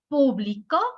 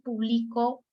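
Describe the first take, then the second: First: The stress is on the final syllable. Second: The stress is not on the final syllable. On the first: Someone published it in the past. "si le pongo el acento en la última" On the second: The speaker publishes as a regular activity. "estoy diciendo que yo me dedico a publicar"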